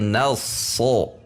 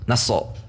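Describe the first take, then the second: First: The middle consonant is drawn out and flowing. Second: The middle consonant is clipped short and quick. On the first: The speaker calls it right. "tetapi nasso ... karena memiliki sifat yang mengalir" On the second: The speaker calls it wrong. "tidak terlalu cepat seperti nasso"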